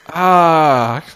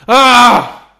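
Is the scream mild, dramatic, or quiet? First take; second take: quiet; dramatic. First: The scream is done quietly. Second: The scream is loud and dramatic.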